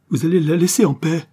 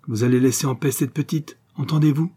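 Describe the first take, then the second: First: Loud, high outburst; raised-voice, overwrought command; desperate demand. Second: Insistent order with a raised ending; firm, mildly heated ultimatum; flung demand. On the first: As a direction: repeat the order at full force, near breaking point. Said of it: "Un sanglot l'étrangla". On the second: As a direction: throw it at him as a warning. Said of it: "lui jeta Miss Johnson". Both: A narrator's reading.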